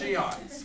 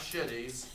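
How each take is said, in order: First: It sounds like shee-ites, with separate vowel sounds. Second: It sounds like the word shitty, two syllables. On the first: The speaker calls it right. "it's Shiites" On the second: The speaker calls it wrong. "it's not shitties"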